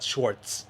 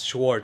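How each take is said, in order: First: The name is said with a t sound. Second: The name is said without a t sound. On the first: The speaker calls it wrong. "not Schwartz" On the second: The speaker calls it right. "There's no T. It's Schwartz"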